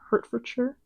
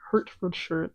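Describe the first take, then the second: First: The word is pronounced smoothly and clearly. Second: The word is pronounced clumsily and unclearly. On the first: The speaker calls it right. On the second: The speaker calls it wrong.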